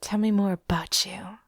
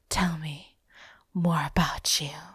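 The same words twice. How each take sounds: First: It is said in a plain, neutral way. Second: It is said in a seductive, sultry way.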